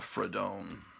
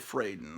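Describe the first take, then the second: First: The first vowel is an open 'ah' sound. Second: The first vowel is not an 'ah' sound. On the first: The speaker calls it wrong. "I was always pronouncing her name" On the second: The speaker calls it right. "I think it's actually Fraden"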